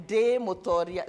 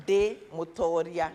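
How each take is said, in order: First: With power. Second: Said in the usual way. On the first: Shown as a demonstration. Leader coaching the room to say it with power. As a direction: declare it like a conqueror. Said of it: "Say it with power". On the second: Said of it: "De means me".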